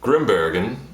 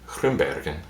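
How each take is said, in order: First: It is said with an English accent. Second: It is said with a Flemish accent. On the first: "that's the English pronunciation" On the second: "for the Vlaams pronunciation"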